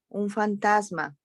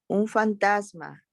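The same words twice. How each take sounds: First: Frightened cry. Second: A mild frightened cry, pitched higher. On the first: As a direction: repeat the startled call, fading a little. (grito de miedo suave, más agudo) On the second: (grito asustado contenido, más agudo) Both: A narrator's reading. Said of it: "Llenos de miedo gritaron".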